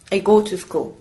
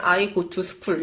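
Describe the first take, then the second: First: English example, "go" and "school" stressed, "to" short; stress-timed "I go to school", beats on "go" and "school". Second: "I go to school" with every word given its full time; unreduced learner English. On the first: Teacher showing English stress timing, "go" and "school" stressed. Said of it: "강세를 뭐 go랑 school이". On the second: Learner wanting to skip contractions, every word of "I go to school" full. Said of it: "이렇게 하고 싶잖아". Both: Shown as a demonstration.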